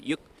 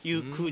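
First: The word ends abruptly with an unreleased stop. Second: The word ends with a released 'ku' sound. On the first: The speaker calls it right. "ユッゆっって感じですね" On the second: The speaker calls it wrong. "ユクじゃなくて"

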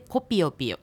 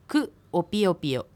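First: The u drops, and the words merge into kopiopio. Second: Ku and opiopio are said as separate syllables. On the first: "クのU の音が落ちるので、つながってコピオピオという音になります" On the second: "クが私という認証節字で、クオピオピオで"

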